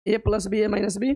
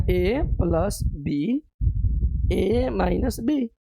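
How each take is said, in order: First: Said in the usual way. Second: Very slow, each term spaced out; slow dictation. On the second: Shown as a demonstration. Teacher dictating the formula to students, very slowly. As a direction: lay out A plus B, A minus B word by word.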